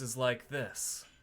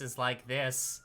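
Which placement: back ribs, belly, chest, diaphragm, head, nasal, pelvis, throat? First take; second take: back ribs; nasal. First: The voice sounds drawn from the back ribs. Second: The voice sounds pinched, resonating through the nose. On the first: "the back of the ribs voice is like this" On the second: "my nasal voice is like this"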